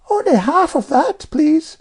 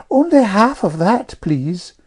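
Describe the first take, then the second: First: Very high, louder child's imitation; Jane copying Amelia. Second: Put-on high, louder prim little girl; Amelia's prim request. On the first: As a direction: mimic a polite girl, pitched way up. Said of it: "replied Jane by way of experiment". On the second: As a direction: pipe up politely like a prim child. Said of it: "coughing off the table and saying". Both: A narrator's reading.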